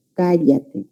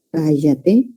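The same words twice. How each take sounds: First: "cállate" with a palatal LL, not a Y; Andean LL. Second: "Cállate" with the LL said like Y, ka-YA-te; coastal yeísmo. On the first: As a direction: Andean "cállate", the LL held distinct. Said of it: "en la zona andina sí diferencian ese sonido". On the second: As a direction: coastal Peruvian "Cállate", LL turned into Y. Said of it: "tenemos el fenómeno de yeísmo". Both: Shown as a demonstration.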